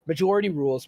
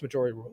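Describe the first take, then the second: First: "Majority rules" stressed and falling; firm call of "Majority rules"; majority rules announced. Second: "majority rules" softly echoed; "majority rules" dropped low and soft; quieter repeat. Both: Shown as a demonstration. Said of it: "let's just put it to a vote".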